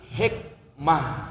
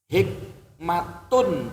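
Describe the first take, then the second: First: The word ends with a soft 'h' sound. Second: The word ends with a full 'tun' sound. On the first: This is how it is read when stopping. "dibaca mati" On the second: This is how the word is written.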